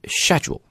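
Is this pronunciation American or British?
British. It is said with a British accent. "but in British accent it's schedule"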